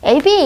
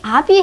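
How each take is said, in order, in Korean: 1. 첫 모음은 앞에서 나는 'ae'예요. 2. 첫 모음은 열린 후설 모음 'a'예요. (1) "이의 영향을 받아서 애비 이렇게 얘기해요" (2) "분명히 아비 해도 되는데"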